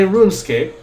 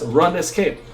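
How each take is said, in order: First: Said in the usual way. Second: "Run Escape" as two words, run then escape. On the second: Shown as a demonstration. Streamer showing own name for the game, "Run Escape" as two words. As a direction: say "Run Escape" with short U and full "escape". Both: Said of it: "which I pronounce as Run Escape".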